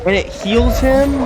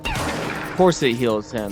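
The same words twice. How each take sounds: First: High, loud, slow shocked question; outraged disbelief. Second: Slow, dry, defeated; resigned sarcasm. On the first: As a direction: yell it in stunned disbelief. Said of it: "Sorry if I'm yelling". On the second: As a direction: shrug it off with bitter sarcasm. Resigned answer to own outburst. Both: Real, not acted.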